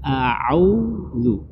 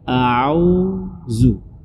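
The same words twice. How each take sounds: First: It starts with a throat sound before u. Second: It starts with a plain au vowel. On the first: The speaker calls it right. "Jadi seharusnya dibaca a'udzu" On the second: The speaker calls it wrong. "Jadi bukan au"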